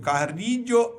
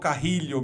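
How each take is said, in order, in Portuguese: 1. O nome mantém a pronúncia original, não brasileira. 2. O nome é pronunciado de forma brasileirada.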